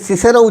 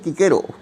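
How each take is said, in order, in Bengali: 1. নামটি S ধ্বনি দিয়ে শুরু হয়। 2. নামটি K ধ্বনি দিয়ে শুরু হয়। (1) "অনেকে এই সিসেরও উচ্চারণ করেন" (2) "লাতিন উচ্চারণ হচ্ছে কিকেরো"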